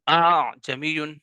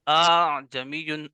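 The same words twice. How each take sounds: The two takes are said the same way.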